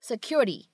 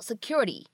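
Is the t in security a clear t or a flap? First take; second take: flap; flap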